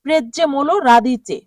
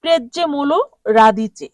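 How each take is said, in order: First: প্রেজ্জেমোলো রাদিচে repeated as a model with stress on প্রেজ্জেমোলো; repeat after me. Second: প্রেজ্জেমোলো রাদিচে said clearly the Italian way, stress on প্রেজ্জেমোলো; Italian pronunciation demo. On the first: Teacher asks class to say it with her, model repeat. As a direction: say প্রেজ্জেমোলো রাদিচে for students to echo. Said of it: "আমার সাথে বলুন". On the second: Teacher shows the Italian name to students, clear demo. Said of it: "এর Italian উচ্চারণ হবে". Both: Shown as a demonstration.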